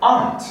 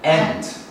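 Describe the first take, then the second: First: The vowel is an open 'ah' sound. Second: The vowel is a front 'a' as in 'cat'. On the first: "근데 여기서는 aunt 이렇게" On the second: "미국으로 어떻게 읽죠?"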